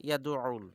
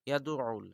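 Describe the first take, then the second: The two takes are said the same way.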